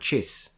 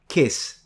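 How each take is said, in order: First: The word begins with a ch sound. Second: The word begins with a k sound. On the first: "Turn it into a Ch" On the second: "Think of a word in English that is pronounced like a K"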